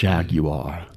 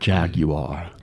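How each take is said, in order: First: It is said with a British accent. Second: The same.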